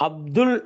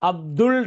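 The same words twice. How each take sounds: No difference in how they are said.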